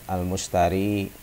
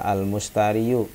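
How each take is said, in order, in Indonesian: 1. Kata ini diakhiri dengan 'i' panjang yang biasa. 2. Kata ini diakhiri dengan suku kata 'yu' tambahan.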